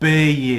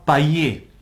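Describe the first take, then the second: First: The word is said with the standard sound. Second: The word is said with a nonstandard sound. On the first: The speaker calls it right. "il faut dire payer" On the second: The speaker calls it wrong. "vous avez la mauvaise habitude"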